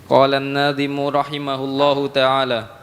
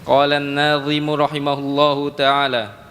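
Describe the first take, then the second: Both takes have the same delivery.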